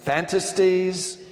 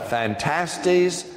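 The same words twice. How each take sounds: First: Fantasies as FAN-tuh-steez, like fantasy; pronunciation variant. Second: Phantastes as fan-TASS-teez; pronunciation variant. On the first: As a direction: stress the first syllable of fantasies, higher and slower. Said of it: "as in fantasy". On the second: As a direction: stress the middle syllable of Phantastes, ending in -teez. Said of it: "pronounced about twelve different ways". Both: Shown as a demonstration.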